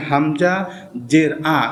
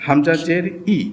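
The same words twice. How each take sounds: First: হামজা জের said wrongly as আ; deliberate mistake. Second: হামজা জের ই with a quick short ই; correct short i. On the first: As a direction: demonstrate the error ending in আ. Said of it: "ভুল হয়ে গেল". (ভুল করে জের দিয়ে আ বলা) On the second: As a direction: say ই short and crisp after জের. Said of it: "আমি একটু দেখাচ্ছি আপনাদেরকে". (হামজা জের ই, ছোট ই উচ্চারণে) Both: Shown as a demonstration.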